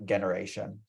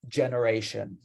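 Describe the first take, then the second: First: The word begins with a hard G sound. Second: The word begins with a soft J sound. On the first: The speaker calls it wrong. "not generation" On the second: The speaker calls it right. "the G is pronounced like a J. So generation"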